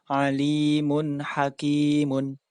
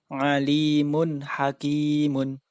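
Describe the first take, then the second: Both takes have the same delivery.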